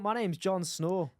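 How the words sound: It is spoken in a Scottish accent. "in a Scottish accent"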